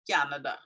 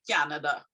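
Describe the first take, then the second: First: A y glide comes between k and vowel. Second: A y glide comes between k and vowel.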